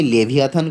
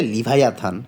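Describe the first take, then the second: First: লেভিয়াথান said with "le-vi-a", short i; "le" pronunciation. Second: লিভায়াথান said with "li-vai-a"; "li-vai" pronunciation. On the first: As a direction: say লেভিয়াথান as le-vi-a-than. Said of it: "এটা উচ্চারণটা যদিও আমি লেভিয়াথান করতেছি". (লেভিয়াথান, "লে-ভি-আ" উচ্চারণে) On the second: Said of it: "অনেকেই বলবে লিভায়াথান". (লিভায়াথান, "লি-ভাই-আ" উচ্চারণে) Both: Shown as a demonstration.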